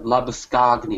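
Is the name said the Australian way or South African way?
South African. The name is said the South African way. "I think they pronounce it like Labuschagne or something"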